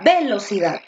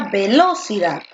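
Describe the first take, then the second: First: The stress is on the first syllable. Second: The stress is on the second syllable.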